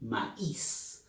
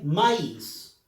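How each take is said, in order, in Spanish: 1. El acento cae en la i. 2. El acento no cae en la i. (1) "todos dicen maíz. Por lo tanto, la I lleva énfasis" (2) "Nadie dice maíz"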